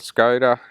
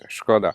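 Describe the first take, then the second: First: The name is said the anglicized Western way. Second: The name is said the native, original way. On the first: The speaker calls it wrong. "as they pronounce it in the Western world" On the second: The speaker calls it right. "the proper thing is"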